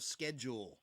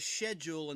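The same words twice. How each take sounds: First: It is said the American way. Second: It is said the British way. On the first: "instead of schedule" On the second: "in England they say schedule"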